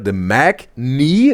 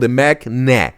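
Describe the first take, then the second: First: The second syllable sounds like 'knee'. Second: The second syllable sounds like 'nah'. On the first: "with the knee down there" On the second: "or the Mac nah?"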